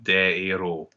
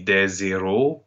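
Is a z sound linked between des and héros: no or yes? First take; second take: no; yes. First: No z sound links des to héros. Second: A z sound links des to héros. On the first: It means heroes. The speaker calls it right. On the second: It sounds like the word for zeros. The speaker calls it wrong. "you will not say"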